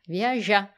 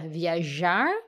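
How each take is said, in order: First: The final R sound is dropped. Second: The final R sound is pronounced. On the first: "on va oublier qu'il y a les R" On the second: "au lieu de dire"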